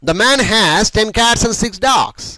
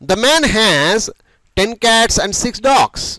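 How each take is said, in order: First: The sentence is read at a faster pace. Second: The sentence is read at a slower pace.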